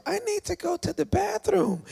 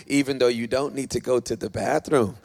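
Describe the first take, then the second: First: High-pitched whiny excuse; mock pleading. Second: Said in the usual way. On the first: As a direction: imitate a squirmy churchgoer in a high voice. Mimics wriggling listener wanting out.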